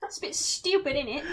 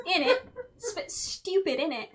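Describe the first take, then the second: First: Mock British slang. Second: Playful fake British accent; mock British. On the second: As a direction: ham up a London accent. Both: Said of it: "cheeky Nando's".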